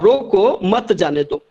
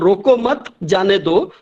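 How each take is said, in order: First: There is a pause after the word roko. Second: There is a pause after the word mat. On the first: Stop; don't let it go. "रोको के बाद अगर आपने वहां पे pause दे दिया तो उसका पूरा अर्थ ही बदल गया" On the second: Don't stop; let it go. "पहला वाला में था रोको मत, मत के बाद वो कॉमा था"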